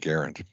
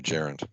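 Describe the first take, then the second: First: The word begins with a hard g sound. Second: The word begins with a j sound. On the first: "I call it a gerund. ... I want a g sound" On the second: "My wife calls it a gerund. ... She wants a j sound"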